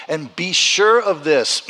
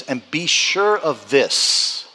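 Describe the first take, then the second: First: Slow repeat, pressing on sure; emphatic repeat. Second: Slow, weighty scripture reading; slow emphatic reading. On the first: Pastor drives the promise home, slow and emphatic. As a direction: lean on sure the second time. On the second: Pastor reads the promise to the congregation, slow and weighty. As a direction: read each word slowly to land it. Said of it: "He says". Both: Shown as a demonstration.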